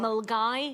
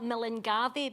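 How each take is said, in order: First: The name is said short, in two clipped syllables. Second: The name is said with all its written syllables. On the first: This is how local people actually say it. The speaker calls it right. "but we pronounce it right" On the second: This is how the spelling suggests it sounds. The speaker calls it wrong. "It's spelt Millingavi"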